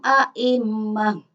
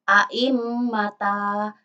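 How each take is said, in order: First: The word ends with a soft h sound. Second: The word ends with a full ta syllable. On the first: The speaker calls it right. "ketika wakof atau berhenti menjadi wa naj'aluhum a'immah" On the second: The speaker calls it wrong. "ketika wakof bukan a'immata"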